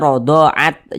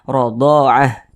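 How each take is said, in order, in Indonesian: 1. Kata ini diakhiri dengan bunyi t yang jelas. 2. Kata ini diakhiri dengan bunyi h yang lembut. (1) "Jangan dibaca radha'at" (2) "kita baca radha'ah"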